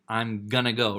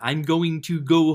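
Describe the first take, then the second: First: 'Going to' is reduced to 'gonna'. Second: 'Going to' is said in full. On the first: It sounds casual and cool. The speaker calls it right. "sounds more like I'm gonna go" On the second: It sounds stiff and nerdy. The speaker calls it wrong. "which is kind of nerdy"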